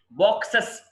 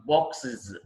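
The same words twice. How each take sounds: First: బాక్సెస్ as "box-ess"; wrong plural ending. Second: బాక్సెస్ as "box-iz", pitched lower; "-iz" ending. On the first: Teacher showing learners the mistake, బాక్సెస్ as "box-ess". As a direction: end బాక్సెస్ on open e and hissed s. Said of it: "కాదు". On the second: Teacher correcting learners' plural, బాక్సెస్ as "box-iz". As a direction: end బాక్సెస్ on short i and z. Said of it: "ఇజ్". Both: Shown as a demonstration.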